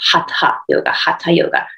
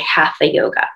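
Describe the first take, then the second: First: The t and h are separate, no th. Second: The middle sound is an English th. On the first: The speaker calls it right. "the proper pronunciation of that in Sanskrit is hatha yoga" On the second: The speaker calls it wrong. "in America, everybody says it wrong. They say hatha yoga"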